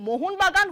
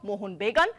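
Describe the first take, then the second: First: The last word's first vowel is an open 'a'. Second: The last word's first vowel is an 'e'. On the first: The speaker calls it right. "মোহনবাগান হয়ে গেল" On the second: The speaker calls it wrong. "হয়ে গেল মোহনবেগান"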